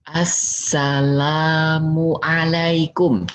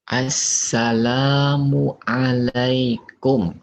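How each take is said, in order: First: Assalamualaikum stretched very slowly; a slow, long salam again; slow drawn-out greeting, a bit higher. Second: Assalamualaikum stretched very slowly; a slow, long salam at the door; slow drawn-out greeting. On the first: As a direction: call the greeting slowly a second time. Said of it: "ucapkan salam kembali". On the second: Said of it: "Udah ucapin salam". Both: Shown as a demonstration.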